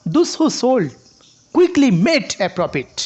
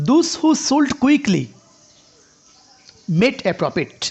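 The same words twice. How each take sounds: First: "quickly" set apart, slow, with a rising tune; rise on quickly. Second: "those who sold quickly" said as one slow unit, "sold quickly" joined on a rising tune; sold quickly run together. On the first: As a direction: pause after "sold", lift "quickly". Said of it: "কুইকলিটাকে আপনি কি করেন? Rise intonation করেন". ("quickly" আলাদা করে, rise ইন্টোনেশনে) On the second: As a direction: join "sold quickly" into one tune, then "made a profit". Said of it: "sold quickly এটা একসাথে intonation করে". ("Sold quickly" একসাথে এক সুরে, ধীরে) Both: Shown as a demonstration.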